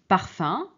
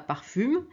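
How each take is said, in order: First: The word ends in a nasal vowel. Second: The word ends with an audible m sound. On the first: The speaker calls it right. "mais on prononce parfum" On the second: The speaker calls it wrong. "on ne prononce pas parfume"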